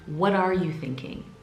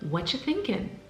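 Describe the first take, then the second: First: Each word of 'what are you' is said separately. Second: The first words are squeezed into 'whatcha'. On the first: "usually the way you should be saying it"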